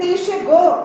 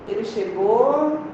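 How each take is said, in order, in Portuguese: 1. É dita com entonação exclamativa e enfática. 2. É dita em tom que vai morrendo, como se ficasse inacabada. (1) "eu tenho que pôr um ponto de exclamação" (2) "reticências"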